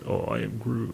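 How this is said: It is said in a sad tone.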